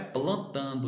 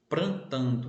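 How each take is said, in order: First: The word begins with a P and L cluster. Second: The word begins with a P and R cluster. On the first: This is the standard form. The speaker calls it right. "o certo é plantando" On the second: This is how country people talk. The speaker calls it wrong. "a forma que as pessoas ... que moram na roça falam"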